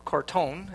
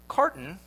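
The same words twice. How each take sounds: First: The name is pronounced in a French way. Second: The name is pronounced in an English way.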